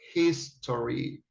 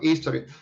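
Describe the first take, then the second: First: The opening h sound is clearly pronounced. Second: The opening h sound is dropped. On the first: The speaker calls it right. "This this has a sound" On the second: The speaker calls it wrong. "not history"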